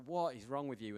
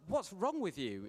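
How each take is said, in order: First: Lower, quieter mock despair at What; quieter disbelief. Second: Exasperated. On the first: Preacher to his friend Mark, lower and more quietly exasperated. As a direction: murmur it, half amused. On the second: Retold or imitated. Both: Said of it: "And I was like".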